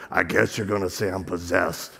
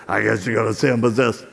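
First: Demon voice. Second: Low, quicker replay of the demon's voice; imitated demon voice. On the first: Retold or imitated. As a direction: let a demon speak low through you. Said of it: "this voice comes out her". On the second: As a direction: mimic the possessed girl, low and fast. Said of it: "looks at me and goes".

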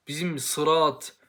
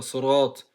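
First: "sırat" despacio, con s y vocal turca; Turkish sırat. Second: Sırat con s enfática árabe, vocal oscura y gruesa; Arabic sırat. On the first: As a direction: di "sırat" al modo turco, lento. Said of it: "Türkçe değil bu arkadaşlar". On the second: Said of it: "Arapçada sırat denmiyor". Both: Shown as a demonstration.

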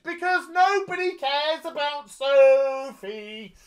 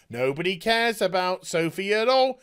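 First: High, slow, sing-song "nobody cares"; sneering at the show; sarcastic drawl. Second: Said in the usual way. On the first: Real, not acted. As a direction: stretch it out mockingly. Repeating a sarcastic refrain.

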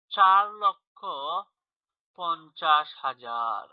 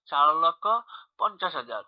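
First: Slow read-out, word by word; slow, drawn-out. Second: Said in the usual way. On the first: Shown as a demonstration. Teacher reading out a number for pupils, slow and drawn-out. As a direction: stretch each word, pausing between the two halves.

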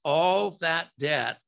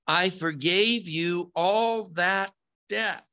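First: Slow "all that debt" with "all" hit hardest; stress on all. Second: "all" pushed higher and held, then "that debt"; stress on all. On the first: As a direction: dwell on "all", let the phrase fall. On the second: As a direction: lean hard on "all" as the emphatic word. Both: Shown as a demonstration. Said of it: "in the original is emphatic".

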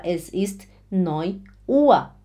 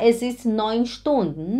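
First: Slow, careful neun Uhr; teacher correcting the example; slow correct model. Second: Said in the usual way. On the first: Shown as a demonstration. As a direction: model the correct form slowly. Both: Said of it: "Não, você fala".

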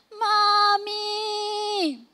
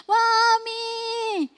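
First: Put-on high, wailing child's cry for mommy, first try. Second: Higher, louder wailing cry for mommy, her best attempt; child crying for mommy. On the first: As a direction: cry out like a hurt little boy calling his mother. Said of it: "tas sigaw siya". (mataas na iyak ng batang tumatawag sa nanay) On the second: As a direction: give the fullest version of a hurt child's desperate call. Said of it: "yun na feeling ko yung pinaka-best na makakaya ko". (mas mataas at mas malakas na iyak na "Mommy!")

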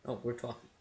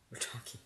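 First: Said in the usual way. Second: Hushed whisper. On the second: Real, not acted. Gamer whispering while the game characters talk. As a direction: whisper it so the scene can be heard.

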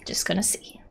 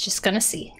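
First: Soft whisper; hushed, breath-only aside; whispered repeat. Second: Said in the usual way. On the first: Real, not acted. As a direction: drop to a whisper, as if to yourself.

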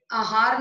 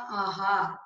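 First: आहार said "ahaar"; wrong short vowel. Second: Said in the usual way. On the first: Shown as a demonstration. Teacher correcting a mistake, आहार with short first a. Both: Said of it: "नहीं होता".

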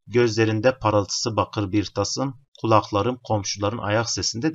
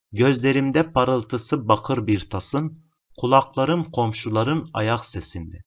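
First: Said in the usual way. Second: Slow poem reading. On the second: Shown as a demonstration. Teacher reads poem from question.

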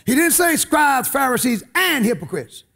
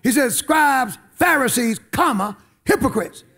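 First: Said in the usual way. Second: Scribes, Pharisees, a pause, then "hypocrites" stressed; pause before hypocrites. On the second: Shown as a demonstration. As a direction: beat on "comma", then land hard on "hypocrites". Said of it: "he said it with an exclamation point".

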